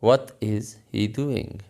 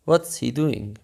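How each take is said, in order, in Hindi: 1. 'What' और 'is' अलग-अलग शब्दों की तरह बोले जाते हैं। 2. 'What' और 'is' जुड़कर एक ही सिलेबल बन जाते हैं।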